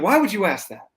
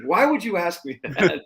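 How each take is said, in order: First: Higher, louder, playfully evasive; mock-defensive pilot. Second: Slower, higher, teasing drawl; drawn-out mock innocence. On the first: Pilot asked about the hands-free landing, mock defensive. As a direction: play innocent, a bit too fast. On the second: The pilot repeating his dodge, slower and coy. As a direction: stretch it out, pretending not to know.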